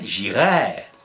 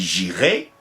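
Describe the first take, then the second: First: The final vowel is slightly lengthened. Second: The final vowel is short. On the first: It is the conditional mood. "et le conditionnel, ... Petite longueur" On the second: It is the future tense. "Le futur, on dit"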